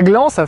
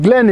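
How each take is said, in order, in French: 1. Il se prononce avec une voyelle nasale 'an'. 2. Il se prononce avec une voyelle 'en' claire. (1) "et non pas Gland" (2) "attention à bien la prononcer Glen"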